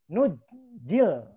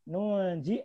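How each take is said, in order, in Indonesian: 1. Bunyi j digandakan tanpa n. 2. Bunyi n terdengar sebelum j. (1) "Ada yang membaca dengan bunyi uh, tasdid" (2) "kalau nunnya dibaca"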